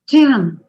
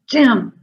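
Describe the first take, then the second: First: The word is said in an excited voice. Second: The word is said in an angry voice. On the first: "in an excited way"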